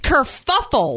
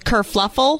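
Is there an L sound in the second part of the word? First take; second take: no; yes. First: The second part is said without an L sound. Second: The second part is said with an L sound. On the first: The speaker calls it right. "But it's not. It's kerfuffle" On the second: The speaker calls it wrong. "for years I thought that word was kerfuffle"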